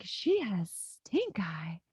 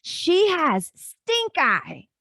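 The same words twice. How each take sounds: First: Slow secretive whisper; whispered quote. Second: Put-on slow, high, loud little boy voice; a lightly played excited child; imitating her son. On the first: Retold or imitated. Mom retelling her son's secret gossip, whispered slowly. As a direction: hush it like telling a secret. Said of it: "he was like". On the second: Mom retelling her son's news, in a slow high kid voice. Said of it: "And he said".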